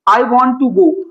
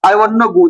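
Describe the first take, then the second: First: The word 'to' is said in full. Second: The word 'to' is reduced to 'na'.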